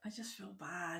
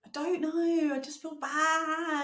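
First: Very soft, guilty near-whisper. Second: High, drawn-out guilty wail; guilty whine. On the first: Co-host owning up about the shirt pick, whispering. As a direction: say it small and hushed. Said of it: "Why are you whispering?". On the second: Co-host asked why she's whispering, guilty whine. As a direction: stretch it out high and pitiful. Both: Real, not acted.

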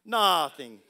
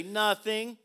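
First: Low-pitched Italian accent; mock Italian accent, dropped low. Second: Said in the usual way. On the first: Shown as a demonstration. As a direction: put on a playful Italian accent. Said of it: "Say it with an Italian se-, accent". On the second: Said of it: "look at your neighbor and say".

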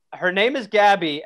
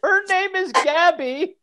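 First: Said in the usual way. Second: Whiny complainer. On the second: Acted. Mock reading of the complaint letter.

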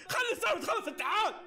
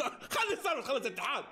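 First: Urgent plea. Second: Said in the usual way. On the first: Real, not acted. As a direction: push the team to finish it. Repeats the plea louder.

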